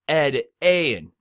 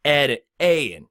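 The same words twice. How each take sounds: First: Said in the usual way. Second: Slow demo. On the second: Shown as a demonstration. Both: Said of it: "words that start off with that A sound".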